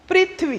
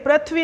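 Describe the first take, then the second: First: The first syllable has an 'ri' vowel sound. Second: The first syllable has an 're' vowel sound. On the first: The speaker calls it right. "री का रूप" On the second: The speaker calls it wrong. "पृथ्वी ना बोल के"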